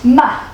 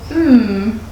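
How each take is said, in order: First: The consonant is followed by an uh vowel. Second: The consonant is held alone without a vowel. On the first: The speaker calls it wrong. "some people might say" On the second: The speaker calls it right. "but actually the sound will be"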